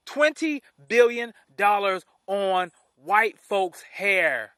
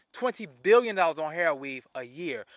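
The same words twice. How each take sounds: First: "Twenty billion dollars" slow and loud, each word separately punched; emphatic word-by-word stress. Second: Said in the usual way. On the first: Real, not acted. Host is appalled at weave spending, "Twenty billion dollars" hammered slowly.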